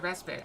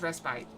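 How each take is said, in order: First: It is said with an American pronunciation. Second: It is said with a British pronunciation. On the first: "I've always pronounced it respite" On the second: "but British is respite"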